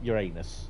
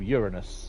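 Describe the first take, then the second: First: It sounds like the words 'your anus'. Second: It sounds like the start of 'urinal'. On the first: The speaker calls it wrong. "not Uranus" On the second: The speaker calls it right. "a bit like urinal"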